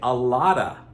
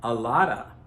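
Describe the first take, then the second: First: The words run together with a soft flapped T. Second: The same.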